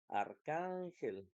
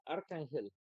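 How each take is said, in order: First: The stress is on the middle syllable. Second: The stress is on the first syllable. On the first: The speaker calls it right. "la sílaba tónica va a ser can, que es la penúltima" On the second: The speaker calls it wrong. "si fuera la primera"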